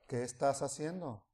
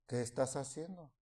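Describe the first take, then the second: The two takes are said the same way.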